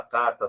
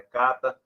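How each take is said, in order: First: Said in the usual way. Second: CATA, carta without the R; R omitted. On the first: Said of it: "a carta sai cata". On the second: Retold or imitated. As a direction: drop the mid-word R: "cata" for carta. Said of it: "mas não aparece no meio". ("cata", carta sem o R)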